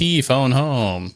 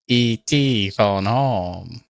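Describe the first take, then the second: First: It is said in a normal voice. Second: It is said in an imitation of E.T.'s voice.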